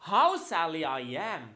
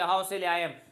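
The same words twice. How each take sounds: First: It is said with anger or pain. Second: It is said flatly, without emotion.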